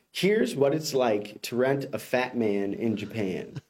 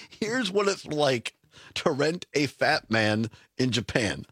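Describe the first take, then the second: First: Slow deadpan reading of "Here's what it's like to rent a fat man in Japan"; slow headline read. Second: Slow echo of "Here's what it's like to rent a fat man in Japan" dropping low at the end; slow incredulous repeat. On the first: Host reads the headline to the co-host slowly. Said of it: "So headline reads". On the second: Co-host repeats the headline slowly, incredulous. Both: Shown as a demonstration.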